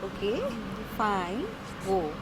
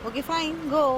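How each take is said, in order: First: The tone is defiant and daring. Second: The tone is cheerful and pleased. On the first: She dares him to actually go. "One was challenge दे रही हूँ" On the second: She is fine with him going. "one was happy"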